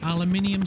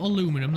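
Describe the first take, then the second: First: The word is said with five syllables. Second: The word is said with four syllables. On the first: The speaker calls it right. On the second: The speaker calls it wrong.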